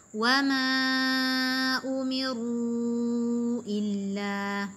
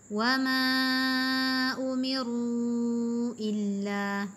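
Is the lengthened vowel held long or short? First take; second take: long; long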